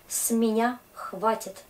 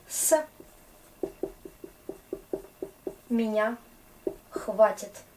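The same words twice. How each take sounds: First: Said in the usual way. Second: С, меня, хватит each said apart with long pauses; slow word by word. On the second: Shown as a demonstration. Teacher to class, breaking down с меня хватит slowly.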